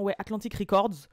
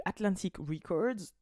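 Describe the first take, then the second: First: "Atlantic Records" said the French way, flat, no English accent; lazy French reading; no-effort French pronunciation. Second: Slow, careful English-style "Atlantic Records"; forced American accent. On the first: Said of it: "je fais vraiment pas d'effort". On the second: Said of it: "quand j'essaie de forcer mon accent". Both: Shown as a demonstration.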